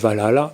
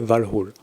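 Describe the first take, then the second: First: The word ends with a final vowel sound. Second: The word ends without a final vowel sound. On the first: This is the commonly known form of the name. The speaker calls it wrong. "connu sous le nom de Valhalla" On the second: This is the more correct form of the name. The speaker calls it right. "il faut plutôt le prononcer Valhall"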